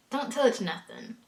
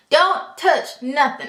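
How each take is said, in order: First: Quieter repeat. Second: "Don't touch nothing" slow, loud and high; slow emphatic warning. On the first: Rule repeated, softer take. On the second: Telling newcomers "Don't touch nothing", loud and deliberate. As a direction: hammer out "Don't touch nothing" slowly, word by word. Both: Real, not acted.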